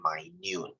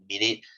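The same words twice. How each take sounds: First: It is said as the word for tiny. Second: It is said as the time-unit word. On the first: It means very small. "when we say something is really small, we say minute" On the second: It names a unit of time. "When we use it to describe time, yes, it is pronounced as minute"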